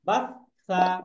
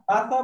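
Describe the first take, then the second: First: The middle consonant is doubled and held long. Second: The middle consonant is short and single. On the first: The speaker calls it right. "Double উচ্চারণ করেই বলতে হবে" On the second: The speaker calls it wrong. "বাসা বললে হবে না"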